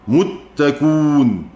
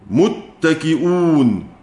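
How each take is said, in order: First: The hamza is dropped and the vowel becomes u. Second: The hamza is kept after an i vowel.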